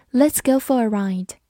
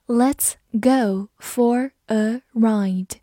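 First: Said in the usual way. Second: Very slow, word by word; slow model reading. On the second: Shown as a demonstration. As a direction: separate each word of "Let's go for a ride". Slow model reading, then natural. (一字一顿地慢读)

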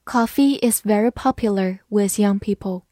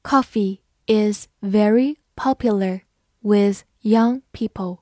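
First: Said in the usual way. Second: Slow, careful read-aloud, each word clear. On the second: Shown as a demonstration. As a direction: read it slowly for learners. (慢速朗读) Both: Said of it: "好，慢读一遍。".

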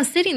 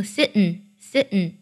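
First: Said in the usual way. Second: "sitting" with the t released through the nose; nasal release. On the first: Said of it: "原声当中的处理方式是将长鼻音弱读成". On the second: Shown as a demonstration. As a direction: say "sitting" as sit-n, no vowel after the t. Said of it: "将t做个鼻音爆破". (把“sitting”的t读成鼻音爆破)

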